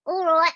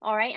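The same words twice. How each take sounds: First: Higher put-on "All right"; "All right" pitched up in character; triggered character voice. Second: Said in the usual way. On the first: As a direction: slip straight into a perky-pitched character. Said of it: "it's a trigger word". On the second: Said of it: "whenever Jen's like".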